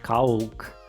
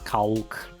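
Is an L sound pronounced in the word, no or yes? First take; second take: yes; yes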